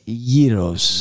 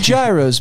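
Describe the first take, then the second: First: It is said in the Greek way. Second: It is said in an Anglicized way. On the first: The speaker calls it right. "ladies and gentlemen" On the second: The speaker calls it wrong. "and not gyros"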